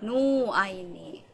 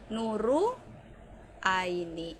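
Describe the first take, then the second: First: The r is dropped, leaving only nu. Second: An extra u vowel follows the r. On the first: "orang Jepang pasti akan mendengarnya menjadi nu" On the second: "saya nggak mau dipanggil dengan Nu Aini, saya bilangnya akan Nuru Aini"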